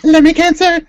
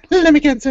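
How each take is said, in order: First: Shouted out loud and high; excited shout. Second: Said in the usual way. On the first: Real, not acted. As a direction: blurt the name out with glee. Excited repeat of a funny name.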